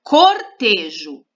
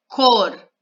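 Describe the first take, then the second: First: Said in the usual way. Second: Cortejo split into cor, te, jo with pauses; syllable by syllable. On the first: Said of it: "vamos olhar por palavra". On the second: Shown as a demonstration. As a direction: say Cortejo in three separate beats. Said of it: "três sílabas". (Cortejo separando as sílabas)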